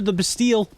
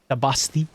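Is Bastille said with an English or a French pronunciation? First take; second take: English; French. First: Bastille is said with an English pronunciation. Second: Bastille is said with a French pronunciation.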